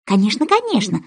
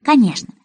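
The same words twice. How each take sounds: First: Conciliatory. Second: Said in the usual way. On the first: Acted. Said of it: "примирительным тоном".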